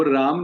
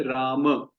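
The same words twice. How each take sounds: First: "राम" ending on a bare m with no final vowel, as in everyday Hindi; clipped Hindi ending. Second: "राम" said slowly with the final a sounded, "Raama"; full Sanskrit ending. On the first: Teacher showing students the everyday Hindi way, clipped. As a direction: say "राम" as "Raam", the final a dropped. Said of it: "वो है राम". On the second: Teacher showing students the correct Sanskrit form, slow. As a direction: draw out "राम" and voice the last short a. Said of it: "वो राम नहीं है". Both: Shown as a demonstration.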